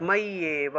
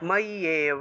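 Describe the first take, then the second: First: The middle consonant is a doubled 'y' sound. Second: The middle consonant is a doubled 'y' sound.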